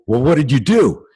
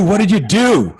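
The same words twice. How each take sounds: First: Said in the usual way. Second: "What did you do" pitched high and loud; loud, high re-enacted demand; exasperated insistence. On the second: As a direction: hammer the question home as an acted-out exasperated dad. Emphatic repeat correcting first asking.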